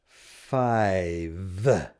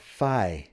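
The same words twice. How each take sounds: First: The word ends with a clear v sound. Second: The final v sound is dropped. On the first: The speaker calls it right. "I don't know if you caught the ending that I did there. V, v" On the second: The speaker calls it wrong. "many of our students don't finish that up. And they'll say"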